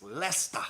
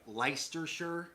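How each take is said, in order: First: "Leicester" as "LESS-tuh", punched; British pronunciation. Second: "Leicestershire" sounded out as "LICE-ter-shur"; spelling pronunciation. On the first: Insisting to viewers on the real name, "Leicester" as "LESS-tuh". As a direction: say "Leicester" in two syllables, no r. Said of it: "I'm telling you". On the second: Showing what the spelling suggests, "Leicestershire" as "LICE-ter-shur". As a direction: say "Leicestershire" as it is spelt, r's sounded. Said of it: "What looks like Leicestershire". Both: Shown as a demonstration.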